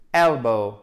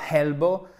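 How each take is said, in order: First: Elbow low, with a strong EL, falling; stress on first syllable. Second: Elbow rising at the end, French-style; wrong elbow. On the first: Teacher modelling correct stress, EL-bow. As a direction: hit EL and let elbow drop. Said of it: "l'accent tonique sur la première syllabe". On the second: Teacher showing what to avoid, elbow with a rising French ending. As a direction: say elbow wrongly, lifting the last syllable. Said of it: "c'est pas elbow". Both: Shown as a demonstration.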